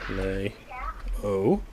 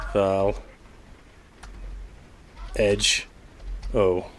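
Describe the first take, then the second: First: Val-lej-o slowly as "val-LAY-oh", silent J; sounded-out pronunciation. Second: Val Edge O in separate pieces, "val... edge... oh"; sounded-out pronunciation. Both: Shown as a demonstration.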